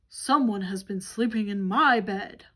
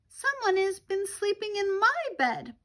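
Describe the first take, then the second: First: It is shouted in a great big voice. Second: It is squeaked in a tiny little voice.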